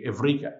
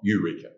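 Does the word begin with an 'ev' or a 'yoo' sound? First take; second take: ev; yoo. First: The word begins with an 'ev' sound. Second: The word begins with a 'yoo' sound. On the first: The speaker calls it right. "the word eureka is actually evrika" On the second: The speaker calls it wrong. "not eureka"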